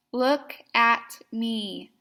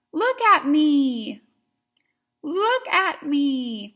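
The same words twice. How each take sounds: First: Said in the usual way. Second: Wide-eyed, loud and slow; exclamation point. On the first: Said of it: "Here's the word again". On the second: Shown as a demonstration. Teacher shows the look motion, loud and excited. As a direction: call it out like a big exclamation. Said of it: "with an exclamation point at the end".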